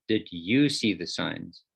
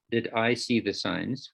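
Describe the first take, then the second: First: "you" stressed and drawn out, slower; "you" is the key word, said slowly. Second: Said in the usual way. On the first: Shown as a demonstration. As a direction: lean on "you" in "Did you see the signs?".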